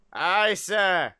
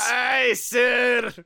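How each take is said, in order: First: Put-on weak first try at a Scottish accent; half-landed Scottish reply to the captain; unconvincing Scottish engineer; bad Scottish accent. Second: Raised, emphatic Scottish engineer; louder, hammed-up Scottish reply; clipped Scottish accent. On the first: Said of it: "not a good way to say that in a Scottish accent". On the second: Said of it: "replied in his clipped Scottish accent".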